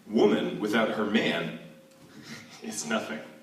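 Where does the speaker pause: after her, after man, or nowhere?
after man. It pauses after man, grouping woman with her man. Woman is nothing without man.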